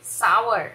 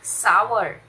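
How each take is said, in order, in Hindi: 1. r से पहले स्वर 'ow' की तरह फिसलता है। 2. r से पहले स्वर 'ow' की तरह फिसलता है।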